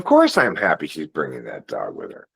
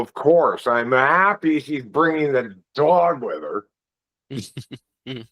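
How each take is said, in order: First: It is said in a sincere, straightforward tone. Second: It is said in a sarcastic, mocking tone. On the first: The speaker is genuinely glad about it. "First one would be like" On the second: The speaker is actually unhappy about it. "That's sarcastic"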